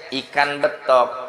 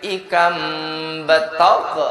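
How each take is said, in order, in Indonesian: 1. Diucapkan dengan lafal sehari-hari yang biasa. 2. Bunyi n berubah jadi m, dan k memantul. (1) "Kalau bacanya biasa" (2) "bacanya pakai tajwid"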